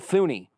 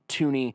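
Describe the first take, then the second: First: The name begins with a TH sound. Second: The name begins with a plain T sound. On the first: The speaker calls it wrong. "the guy on the E S P N ... said Thuney" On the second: The speaker calls it right. "it is pronounced Tooney"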